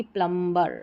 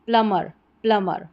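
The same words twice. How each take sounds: First: प्लम्बर with b sounded; wrong pronunciation. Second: प्लमर as "plummer", no b; correct silent b. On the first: Teacher warning against the mistake, b voiced in प्लम्बर. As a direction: say "plum-ber", b audible in प्लम्बर. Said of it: "ना कि प्लम्बर". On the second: Teacher giving correct form, प्लमर with silent b. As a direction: leave the b out of प्लमर. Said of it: "इसका correct उच्चारण जो रहेगा". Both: Shown as a demonstration.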